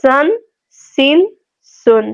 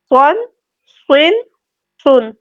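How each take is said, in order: First: سن with a light, thin, whistling s; thin seen. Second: سن with a heavy, full, whistling s; thick saad. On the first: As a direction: keep the s in سن flat-tongued and light. (سن باریک، سیٹی کے ساتھ) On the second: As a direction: raise the back of the tongue for a dark s in سن. (سن موٹا، صاد کی آواز) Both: Shown as a demonstration. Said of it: "فرق آپ لوگوں کو محسوس ہوا ہوگا".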